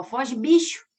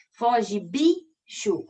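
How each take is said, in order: First: Foge bicho with the last syllable faded to a hiss; final syllable soft. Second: Foge bicho drawn out, syllable by syllable; slow syllable demo. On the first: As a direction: let bicho trail off. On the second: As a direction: spell out Foge bicho slowly. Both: Shown as a demonstration. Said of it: "Olha como é que o xô".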